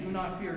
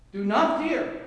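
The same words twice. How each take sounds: First: Said in the usual way. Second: Louder, higher, firm command; commanding imperative. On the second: Shown as a demonstration. Preacher declares God's command to the church, loud and firm. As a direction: proclaim it as God's order. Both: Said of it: "It's in the imperative".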